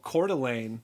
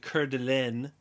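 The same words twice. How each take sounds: First: The name is pronounced with an American English accent. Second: The name is pronounced with a French accent. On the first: This is how locals say the name. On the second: This is the original form of the name.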